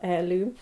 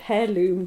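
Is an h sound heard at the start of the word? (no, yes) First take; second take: no; yes. First: The word begins without any h sound. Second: The word begins with an audible h sound. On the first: The speaker calls it right. "no, no, it's called heirloom" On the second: The speaker calls it wrong. "in Scandinavian you pronounce the H, so I said heirloom"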